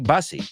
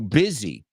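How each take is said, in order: First: The first syllable sounds like 'bus'. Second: The first syllable sounds like 'biz'. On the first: The speaker calls it wrong. "A lot of people mispronounce the word busy and they say basi" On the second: The speaker calls it right. "But it's not English"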